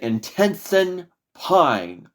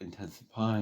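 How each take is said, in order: First: It is said in a strong, authoritative voice. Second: It is said in a casual, unsure voice. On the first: The speaker calls it right. "I'm going to say it with authority" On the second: The speaker calls it wrong. "it's meaningless"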